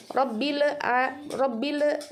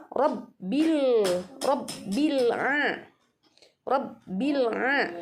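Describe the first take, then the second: First: "Robbile a" with stray e after l; bounced lam. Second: "Robbil a" slowly, l closed straight into ain; unbounced lam. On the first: Teacher shows what is not allowed, "Robbile" bounced. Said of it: "Nggak boleh". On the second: Teacher shows the right way, "Robbil a" without bounce. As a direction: hold "Robbil" closed, no vowel after l. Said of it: "Seperti itu ya". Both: Shown as a demonstration.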